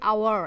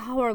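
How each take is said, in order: First: The word starts with a vowel, no h sound. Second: The word starts with an audible h sound. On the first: The speaker calls it right. "এর প্রোনাউন্সিয়েশনটা কি হচ্ছে আওয়ার" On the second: The speaker calls it wrong. "আমরা কিন্তু হাওয়ার বলছি না"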